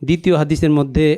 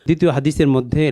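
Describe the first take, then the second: No difference in how they are said.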